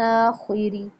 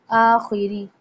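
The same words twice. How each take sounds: First: आखिरी ending in a full long ी; teacher repeating आखिरी; Arabic pronunciation. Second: आखिरी with the final long ी fully said; teacher showing आखिरी; Arabic pronunciation. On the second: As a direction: say आखिरी, not Urdu आखिर. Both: Shown as a demonstration. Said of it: "आखिर नहीं पढ़ना जैसे उर्दू में पढ़ते हैं".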